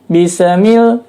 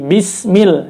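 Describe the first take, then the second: First: The s bounces with an added vowel after it. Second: The s is short and thin with no vowel. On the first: The speaker calls it wrong. "bacanya adalah dipantulkan" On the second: The speaker calls it right. "bis tipis saja"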